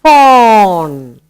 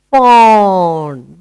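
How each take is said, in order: First: Loud, drawn-out "Fawn"; modelled word. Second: Said in the usual way. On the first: Shown as a demonstration. Teacher repeating "Fawn" for children, clearly. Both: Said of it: "baby of a deer".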